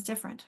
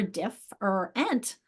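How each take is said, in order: First: "different" run together as DIFF-rent; natural speech. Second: "diff or ent" as three separate pieces, DIFF-ER-ENT; divided into syllables. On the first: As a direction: swallow the middle vowel of "different". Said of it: "but natural speech". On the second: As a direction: break the word at each vowel, "diff or ent". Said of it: "underline this and divide it". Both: Shown as a demonstration.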